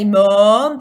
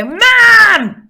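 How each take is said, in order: First: "mom" with a short, rounded northern vowel, held out. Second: "mam" yelled high with an open a; kid's Southwest "mam". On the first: Shown as a demonstration. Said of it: "because they don't say". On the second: Retold or imitated. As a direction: shout "mam" like a Southwest child. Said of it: "this really kind of mam sound rather than mum".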